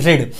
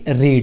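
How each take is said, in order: First: The vowel is short, rhyming with 'bed'. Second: The vowel is long, rhyming with 'seed'. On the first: It is the past tense form of the verb. "इसका मतलब हमने खुद उच्चारण किया ना रेड" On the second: It is the base form used after 'did'. "उसके बाद बनेगा आके रीड"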